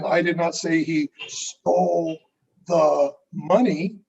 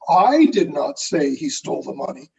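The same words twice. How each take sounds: First: The stress falls on the word money. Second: The stress falls on the word I. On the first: He took something else. "then what did he take?" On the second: Someone else said it. "who did say it?"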